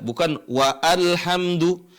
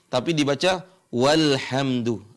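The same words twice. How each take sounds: First: Wa alhamdu said slowly with the alif sounded separately; wrong reading, slowed. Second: Walhamdu joined as one word, alif silent; correct joined reading. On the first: Teacher shows the incorrect separated reading slowly. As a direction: pronounce wa and alhamdu as two separate words. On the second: Teacher gives the correct joined reading. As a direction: say walhamdu with no break. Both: Shown as a demonstration.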